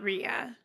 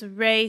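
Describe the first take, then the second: First: The name is said as two syllables. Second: The name is said as one syllable. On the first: The speaker calls it wrong. "not Rhea" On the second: The speaker calls it right. "It's Ray Seahorn"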